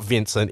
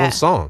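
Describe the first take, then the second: First: The name is pronounced the English way. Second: The name is pronounced the French way. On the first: The speaker calls it wrong. "his name's not Vincent" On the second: The speaker calls it right. "this guy's actually French ... it's Vincent"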